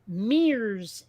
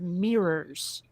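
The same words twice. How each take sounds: First: The word is said in a Vermont pronunciation. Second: The word is said in a standard pronunciation.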